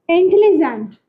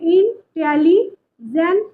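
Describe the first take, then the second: First: Said in the usual way. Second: "इंटेलिजेंट" broken into in, teli, jent with gaps; teacher's syllable-by-syllable "इंटेलिजेंट", pausing between parts; split into syllables. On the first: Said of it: "इसमें कितने syllable हैं वो देखिए". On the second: Shown as a demonstration. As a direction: say "इंटेलिजेंट" in three separate chunks. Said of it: "इसको ऐसे भी बोल सकते हैं".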